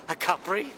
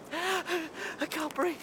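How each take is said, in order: First: Said in the usual way. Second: Slow, faint, breathless gasp; gasping for breath. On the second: Acted. Robbed miser panicking to himself, gasping and breathless. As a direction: barely get the words out, winded.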